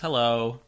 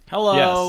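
First: It is said in the speaker's natural voice. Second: It is said in a put-on impersonating voice. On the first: The speaker greets as himself. "No, my name is [name]" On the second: The speaker is pretending to be someone else. "That's not Hello. Even a very good Paul F. Tompkins impression"

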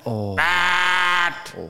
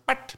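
First: The horn imitation is long and loud. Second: The horn imitation is short and soft. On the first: A rude, aggressive honk. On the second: A polite little toot.

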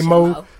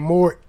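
First: The final r sound is dropped. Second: The final r sound is pronounced. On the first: The speaker is tired. "When I'm tired, I say Mo" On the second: The speaker is being professional. "When I feel like being professional, I say More. ... I whisper the E at the end"

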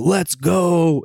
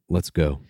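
First: It is said with excited, hyped energy. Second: It is said in a sad, deflated way.

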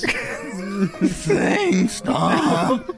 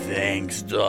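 First: The voice cracks with emotion. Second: The voice stays steady, holding back anger.

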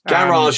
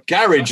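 First: It is said the Southern Counties way. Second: It is said the northern Counties way.

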